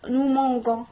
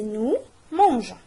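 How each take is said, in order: First: The g is hard, like in 'go'. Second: The g is soft, like in 'je'. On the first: The speaker calls it wrong. "On ne veut pas dire" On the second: The speaker calls it right. "mais nous mangeons"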